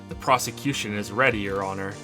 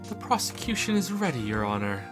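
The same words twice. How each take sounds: First: It is said in a plain, ordinary voice. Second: It is said in a fancy, posh voice.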